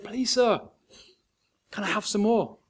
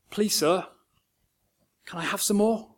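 First: Even tinier hushed plea; smaller voice still. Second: Put-on small timid boy's plea, hushed; tiny little voice. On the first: Oliver repeats his plea to the master, tinier still. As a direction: shrink the voice further. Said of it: "in a smaller voice still". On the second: Orphan boy timidly asks the master for food, hushed. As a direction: barely dare to ask. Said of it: "Oliver musters this tiny little voice". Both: A narrator's reading.

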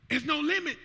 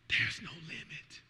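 First: "There's no limit" called out high; proclaimed. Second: "There's no limit" slow, low and soft; hushed. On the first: Pastor proclaiming to church, high strong proclamation. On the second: Pastor hushing to church, slow soft low. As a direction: drop to a hush on "There's no limit". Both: Real, not acted.

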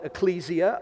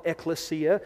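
First: Ecclesia said "ih-KLEE-zee-uh"; alternate pronunciation. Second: Ecclesia said "ek-luh-SEE-uh"; other pronunciation. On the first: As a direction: stress KLEE in ecclesia, with a z sound. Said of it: "pronounced two different ways". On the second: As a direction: stress SEE in ecclesia, with an s sound. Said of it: "other people call it". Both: Shown as a demonstration.

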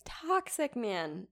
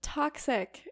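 First: "Toxic man" drawn out slowly; slow emphatic verdict. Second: High, indignant "Toxic"; outraged exclamation. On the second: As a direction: spit out "Toxic" in disgust. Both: Real, not acted. Outraged at the story.

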